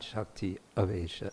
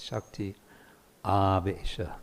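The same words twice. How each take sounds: First: The A vowel in Avesha is short. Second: The A vowel in Avesha is long. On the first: The speaker calls it wrong. "It's not Shakti Avesha" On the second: The speaker calls it right. "It's a long A, it makes a difference"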